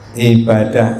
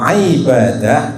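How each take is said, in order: First: The word begins with a plain glottal stop. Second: The word begins with a throaty ain sound. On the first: It means destroying. "Ibadah itu artinya menghancurkan" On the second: It means serving God. "Kalau ibadah itu menghambakan diri kepada Allah"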